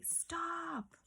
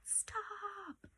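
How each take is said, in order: First: High whispered command; commanding stop. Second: Very high whispered stop; a sharp high breathy order; strong command. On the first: Teacher demonstrating the exclamation to students, whispered high. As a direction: hiss the order up high. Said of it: "if I say". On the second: Teacher showing a strong feeling for the exclamation mark, whispered high. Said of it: "because I'm saying". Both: Shown as a demonstration.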